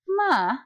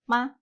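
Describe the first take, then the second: First: The pitch moves both up and down. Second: The pitch stays plain and light. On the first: "Jadi dia naik, tapi diturunkan lagi" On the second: "Ini yang normal"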